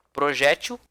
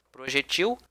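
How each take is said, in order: First: "Projétil" stressed on open -JÉ-; middle-syllable stress. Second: "Projetil" stressed on the last syllable, -TIL; final-syllable stress. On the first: Teacher contrasts two variants for class, proJÉtil. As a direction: say proJÉtil, light on the ending. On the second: Teacher contrasts two variants for class, projeTIL. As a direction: say projeTIL, weight on the end. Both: Shown as a demonstration. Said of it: "A mesma forma com projétil".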